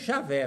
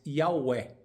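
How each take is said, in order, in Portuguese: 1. Começa com um som de 'zh'. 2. Começa com um som de 'y'. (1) "não Javé como é pronunciado em português" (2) "O J com som de I e o W com som de V"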